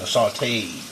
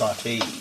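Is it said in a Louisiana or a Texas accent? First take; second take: Louisiana; Texas. First: It is said in a Louisiana accent. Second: It is said in a Texas accent.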